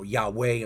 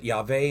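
First: "Yahweh" said yah-WEH with a w sound. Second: "Yahweh" said yah-VEH with a v sound. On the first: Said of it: "other people pronounce it". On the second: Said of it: "I pronounce it Yahweh". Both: Shown as a demonstration.

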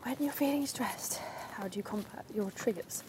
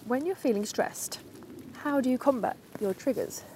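First: Hushed whispered radio-presenter read; mock Radio 4 interviewer, softer and whispered; whispering like a Radio 4 presenter; Clare Balding impression. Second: Said in the usual way. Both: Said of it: "I'm doing my best Kerr Balding impression".

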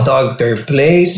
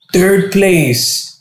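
First: Slow, let-down repeat; disappointed mumble. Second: High, drawn-out award call; announcer call. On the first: Cuban hears only third place, slow and let down. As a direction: sink at the news. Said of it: "I was like". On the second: Host announces third place, high and drawn out. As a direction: announce it to the crowd. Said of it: "they're like". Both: Retold or imitated.

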